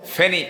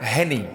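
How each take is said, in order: First: The word begins with an F sound. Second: The word begins with an H sound. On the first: This is the standard form of the name. "ফেনি না" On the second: This is how local people say the name. "এইচ E N I, এফ বাত"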